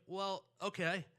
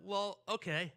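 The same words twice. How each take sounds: First: Higher, louder, drawn-out agreement; mom giving in. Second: Imitating dad's louder, higher agreement; dad giving in. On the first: Retold or imitated. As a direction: imitate mom slowly agreeing to indulge her kid. Mom gives in to begging child. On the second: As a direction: agree loudly to the kid's pleading. Dad gives in to begging child.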